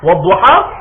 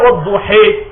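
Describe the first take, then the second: First: The final vowel is a clear open A. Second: The final vowel is a front E sound. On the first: "on va le faire avec un A" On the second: "avec le E"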